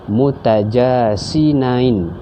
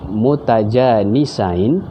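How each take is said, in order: First: The s sound comes before the n sound. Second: The n sound comes before the s sound. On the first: The speaker calls it wrong. "dia tersebut sinain, pun salah" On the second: The speaker calls it right. "sepatutnya sebut nun dulu"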